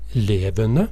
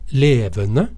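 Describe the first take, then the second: First: The word starts on a much lower pitch. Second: The word starts on a relatively high pitch. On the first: Something that makes a racket. "mens i levende så begynner vi mye lavere" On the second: Something that is alive. "i levende så har vi en relativt høy tone"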